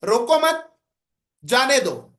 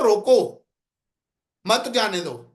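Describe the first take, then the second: First: "روکو مت" raised as one unit, pause, "جانے دو"; pause after مت. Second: "روکو" alone, pause, then "مت جانے دو" in one falling run; firm "روکو", gap, lower "مت جانے دو"; pause after روکو. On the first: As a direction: join مت to روکو, break, drop on جانے دو. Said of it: "ایک لہجہ میرا یہ ہے". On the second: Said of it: "اور ایک میں کہتا ہوں". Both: Shown as a demonstration.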